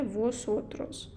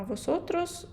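First: «восотрос» said slowly, each syllable clear; drawn out slowly so learners catch it; teacher introducing the pronoun slowly; slow model word. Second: «восотрос» lifted high with a rising tune; teacher warning learners about a rare form; raised for emphasis. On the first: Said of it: "Наступна особа — це". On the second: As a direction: flag «восотрос» as the special case. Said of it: "маленька зірочка". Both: Shown as a demonstration.

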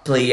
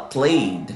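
First: "played" split into play-ed; wrong -ed ending. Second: "played" as one syllable, PLAYD; smooth one-beat "played"; correct soft -ed. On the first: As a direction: mispronounce "played" with an extra "ed" syllable. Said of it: "a gente não fala". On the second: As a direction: end "played" on a soft d, no extra vowel. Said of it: "a gente fala". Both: Shown as a demonstration.

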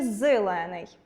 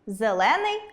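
First: «зелений» with И in place of the first E; И-like first vowel. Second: «Зелений» with an open E after З; clear E pronunciation. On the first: Teacher offering the doubtful spelling, И after З. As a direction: say «зелений» as «зилений», slowly. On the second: Teacher asking which letter follows З, clear E. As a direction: say «Зелений» with a clear E in the first syllable. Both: Shown as a demonstration. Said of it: "яка літера пишеться після «з»?".

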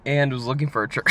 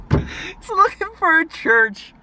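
First: Said in the usual way. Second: Very high, slow, loud squeal of disbelief; amazed delight. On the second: Real, not acted. Man telling viewers of the stranger's church search, amazed. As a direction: repeat it through giddy laughter, stretched out. Repeats punchline, amazed and laughing.

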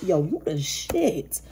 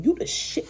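First: Slow, savoured street praise; slow drawn-out hype. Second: Breathy whispered praise, pitched up; whispered hype. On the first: Reader slowly hyping up Virgo listener. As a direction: stretch it out, relishing each word. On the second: Reader whispering praise to Virgo listener. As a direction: whisper it like a secret compliment. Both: Pretend.

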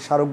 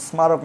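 First: স্মারক as sharok, no m; silent m. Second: স্মারক as smarok, m sounded; m pronounced. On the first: Teacher showing what we say, স্মারক without m. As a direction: drop the m from স্মারক. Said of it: "স্মারক বলি". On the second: Teacher showing the unused form, স্মারক with its m. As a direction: keep the m in স্মারক. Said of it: "স্মারক না বলে". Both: Shown as a demonstration.

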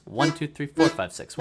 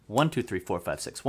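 First: "One" and "four" leaned on a little harder; six-eight count accenting "One" and "four"; stress on one and four. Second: Said in the usual way. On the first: Shown as a demonstration. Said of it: "the four count is also emphasized, so try doing this". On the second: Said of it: "we count to six quickly, like this".

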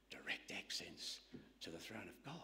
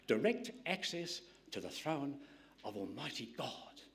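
First: Hushed whisper. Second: Said in the usual way. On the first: Real, not acted. Preacher repeats the line hushed.

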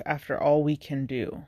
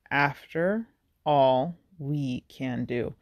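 First: Said in the usual way. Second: "After all we can do" slowly, each word set apart; stress on every word. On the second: Shown as a demonstration. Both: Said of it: "emphasizes every word".

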